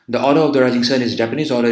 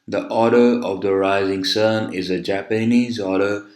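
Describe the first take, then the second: First: It is spoken at a very fast speed. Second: It is spoken at a very slow speed. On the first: The speaker is deliberately rushing. "if I were to speak this very fast like this" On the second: The speaker is deliberately dragging. "if I speak very slow like this"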